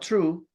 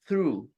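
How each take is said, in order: First: The word starts with a plain t sound. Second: The word starts with a th sound. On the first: The speaker calls it wrong. "not true" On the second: The speaker calls it right.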